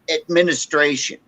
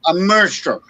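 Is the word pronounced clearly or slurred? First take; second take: clearly; slurred. First: The word is articulated clearly and fully. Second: The word is slurred and poorly articulated. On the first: The speaker calls it right. "I'm getting a little bit hammered, but I can still say administration" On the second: The speaker calls it wrong. "He goes"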